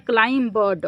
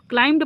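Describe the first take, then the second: First: क्लाइम बर्ड as "klaim-ba-da", b and d sounded; wrong pronunciation. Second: क्लाइम्ड with m straight into d, no b; correct pronunciation. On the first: Teacher offering the wrong choice to pupils, b voiced in क्लाइम बर्ड. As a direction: add a full "ba-da" after the m in क्लाइम बर्ड. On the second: Teacher offering the right choice to pupils, b silent in क्लाइम्ड. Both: Shown as a demonstration. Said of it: "पढ़ेंगे या क्लाइम बर्ड".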